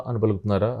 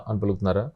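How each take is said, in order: Both takes have the same delivery.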